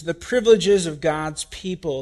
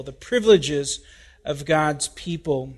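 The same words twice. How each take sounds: First: Said in the usual way. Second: The Privileges, of God's People, each part weighted with a pause; slow emphatic title. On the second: Shown as a demonstration. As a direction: repeat the title slowly, leaning on Privileges. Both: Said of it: "We've titled this message".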